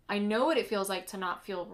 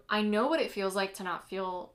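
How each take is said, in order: Both takes have the same delivery.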